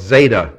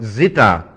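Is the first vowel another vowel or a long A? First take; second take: long A; another vowel. First: The first vowel is a long A sound. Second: The first vowel is not a long A. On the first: The speaker calls it wrong. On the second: The speaker calls it right.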